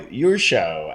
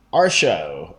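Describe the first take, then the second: First: "your show", opening with a y sound, slow; name read as "your show". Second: "our show", opening with the sound of "our"; name read as "our show". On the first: Reviewer offering another guess at the repo's name, "your show" pronunciation. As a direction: stretch it slowly as "your show", with a y. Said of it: "I'm not sure". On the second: Reviewer guessing at a repo's name, "our show" pronunciation. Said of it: "or your show, I'm not sure". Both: Shown as a demonstration.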